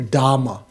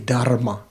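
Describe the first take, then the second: First: There is no R sound before the M. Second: An R sound comes before the M. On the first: This is the Pali form. The speaker calls it right. "You have Dhamma" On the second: This is the Sanskrit form. The speaker calls it wrong. "You don't say dharma"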